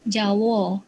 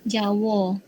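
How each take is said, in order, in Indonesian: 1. Diucapkan dengan lafal dialek Negeri Sembilan. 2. Diucapkan dengan lafal dialek Negeri Sembilan.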